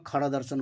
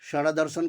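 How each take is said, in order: First: The first word begins with a kh sound. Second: The first word begins with a sh sound. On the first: "ये शकार को खकार भी पढ़ते हैं" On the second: "षड़ दर्शन की जगह में"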